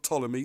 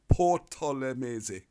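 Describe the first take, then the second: First: The initial P is silent. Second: The initial P is pronounced. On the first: This is the English way of saying the name. The speaker calls it wrong. "It's not Ptolemy" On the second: This is the Greek way of saying the name. The speaker calls it right. "the P is pronounced Ptolemese"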